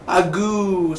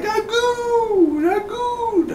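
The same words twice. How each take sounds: First: Said in the usual way. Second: Very high falsetto crying out Agoo; calling the dog. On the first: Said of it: "what was the dog's name". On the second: Pretend. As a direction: wail Agoo like calling a lost pet.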